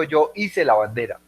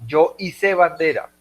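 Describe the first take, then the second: First: Hice said as Í-se, front-stressed; stress on first syllable. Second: Hice said as i-SÉ, end-stressed; stress on last syllable. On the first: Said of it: "pero yo no digo". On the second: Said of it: "Hice es de izar bandera". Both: Shown as a demonstration.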